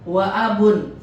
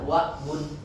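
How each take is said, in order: First: The 'a' vowel after 'wa' is kept. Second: The 'a' vowel after 'wa' is dropped. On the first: The speaker calls it right. "bacanya wa abun" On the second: The speaker calls it wrong. "bukan baca wa bun"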